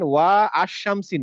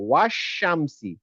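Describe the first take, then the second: First: The alif vowel is pronounced as a separate sound. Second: The words run together without the alif vowel. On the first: The speaker calls it wrong. "না" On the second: The speaker calls it right. "আমি এটা পড়বো না"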